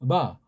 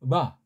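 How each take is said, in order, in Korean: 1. 입술을 꽉 다물어 단단한 b 소리를 냅니다. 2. 입술을 꽉 다물어 단단한 b 소리를 냅니다.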